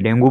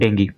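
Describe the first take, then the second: First: The word ends with an 'oo' vowel. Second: The word ends with an 'ee' vowel. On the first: This is the Hindi way of saying it. "जिसे हिंदी में डेंगू बोलते हैं" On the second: This is the English way of saying it. "English में इसका जो उच्चारण होता है वो होता है डेंगी"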